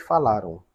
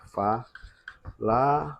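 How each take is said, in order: First: Said in the usual way. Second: "falaram" split as fa, la, ram with long pauses; syllable by syllable. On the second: Shown as a demonstration. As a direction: say "falaram" very slowly, one syllable at a time. ("falaram" bem devagar, fa, la, ram, com pausas) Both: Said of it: "Nós vamos separar em sílabas".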